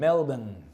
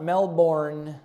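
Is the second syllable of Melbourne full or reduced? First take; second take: reduced; full. First: The second syllable sounds short like 'ben'. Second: The second syllable has a full 'born' vowel. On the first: The speaker calls it right. "It's like Benjamin" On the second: The speaker calls it wrong. "It's not Melbourne"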